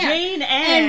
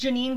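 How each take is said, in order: First: The name ends with a short 'an' sound. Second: The name ends with a long 'neen' sound. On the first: The speaker calls it wrong. "doubled down and called her Jane Anne for years" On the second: The speaker calls it right. "I mispronounced Janine Garofalo"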